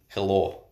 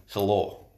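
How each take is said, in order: The two takes are said the same way.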